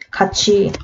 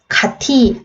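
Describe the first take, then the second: First: The second syllable starts with a 'ch' sound. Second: The second syllable starts with a 't' sound. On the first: The speaker calls it right. "어떻게 발음해?" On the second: The speaker calls it wrong. "같이 아니라"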